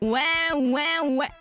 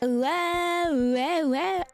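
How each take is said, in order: First: The voice has a hard, strong auto-tune effect. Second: The voice has a light, natural auto-tune effect. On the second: "This is the natural auto-tune"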